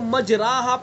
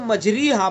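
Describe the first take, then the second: First: The vowel after r is an open 'a'. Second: The vowel after r is a high 'ee'. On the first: "अगर हम ज़बर पढ़ेंगे तो मजराहा पढ़ा जाएगा" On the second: "ज़ेर पढ़ेंगे तो मजरीहा पढ़ा जाएगा"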